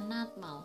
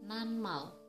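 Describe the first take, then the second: First: A t sound comes before the m. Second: An n sound comes before the m. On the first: The speaker calls it wrong. "Seharusnya dibaca natmal" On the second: The speaker calls it right. "tapi yang benar dibaca nanmal"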